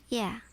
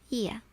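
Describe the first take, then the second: First: It is said like the word yeah. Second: The same.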